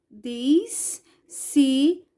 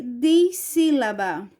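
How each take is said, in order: First: Dis-sí-la-ba, very slow with gaps; syllable by syllable. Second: Said in the usual way. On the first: Shown as a demonstration. Teacher writing the answer for pupils, Dissílaba in slow pieces. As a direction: pull Dissílaba apart syllable by syllable. Word broken up as she writes.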